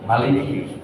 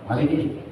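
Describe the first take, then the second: Both takes have the same delivery.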